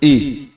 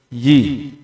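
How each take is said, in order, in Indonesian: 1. Suku kata ini dimulai dengan hamzah. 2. Suku kata ini dimulai dengan bunyi y. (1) "Pakai hamzah. Tidak boleh"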